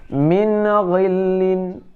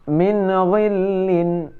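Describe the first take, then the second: The two takes are said the same way.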